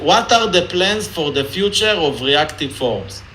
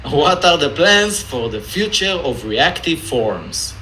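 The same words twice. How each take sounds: First: Israeli accent. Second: Said in the usual way. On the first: Shown as a demonstration. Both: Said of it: "in an Israeli accent".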